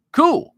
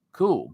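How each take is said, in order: First: Squeaky high, loud one-word reply; mock squeal. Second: Said in the usual way. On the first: Real, not acted. Answering chat's plug with a squeaky joke cool.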